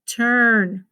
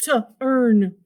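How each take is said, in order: First: Said in the usual way. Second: "to earn" as "tuh", gap, "urn"; wrongly segmented. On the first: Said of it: "So that's only one". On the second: Retold or imitated. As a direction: break turn into "to earn", two separate sounds. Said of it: "Some kids wanna go".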